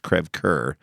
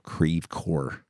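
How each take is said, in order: First: It is pronounced the French way. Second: It is pronounced the local St. Louis way.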